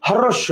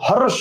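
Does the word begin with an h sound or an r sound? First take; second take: h sound; h sound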